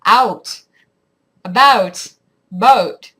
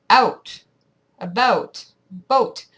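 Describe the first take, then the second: First: Loud, slow American "out", "about", "boat", over the vowel; American accent. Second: Slow Canadian "out", "about", "boat", dipping under the vowel; Canadian accent. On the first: Canadian attempting the American side, exaggerated American accent. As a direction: punch each word with American vowels. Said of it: "your accent goes over the vowel". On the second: Vlogger demonstrating the Canadian side, Canadian accent. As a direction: say each word apart with Canadian vowels. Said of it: "your accent goes under the vowel". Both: Shown as a demonstration.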